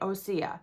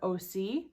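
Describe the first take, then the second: First: The name is said as three syllables, O-se-a. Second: The name is said as two syllables, O-C. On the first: The speaker calls it right. "she kept calling it Osea" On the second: The speaker calls it wrong. "I keep wanting to call it O C"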